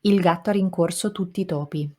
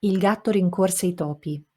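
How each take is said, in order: First: "Il gatto ha rincorso tutti i topi" with each syllable full and equal, none reduced; steady rattle of equal syllables in "tutti i topi"; syllable-timed Italian. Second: Every syllable of "Il gatto rincorse i topi" given equal length; even, unreduced syllables in "Il gatto rincorse i topi"; syllable-timed Italian. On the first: Teacher showing the longer Italian sentence takes longer. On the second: Teacher demonstrating Italian syllable timing. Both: Shown as a demonstration. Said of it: "Listen to how long it takes me".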